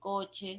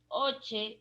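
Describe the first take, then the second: First: The first consonant is pronounced. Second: The first consonant is left out. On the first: The speaker calls it right. "en vez de coche" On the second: The speaker calls it wrong. "me como la C"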